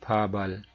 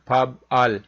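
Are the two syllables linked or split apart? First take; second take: linked; split. First: The consonant links smoothly into the next syllable. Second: The syllables are split, with a break between. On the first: The speaker calls it right. "ब्यूप की आवाज ऊपर चली जाएगी, तो ये बन जाएगा जी फाबल" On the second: The speaker calls it wrong. "ये तो पढ़ने में फब अल लग रहा है ना"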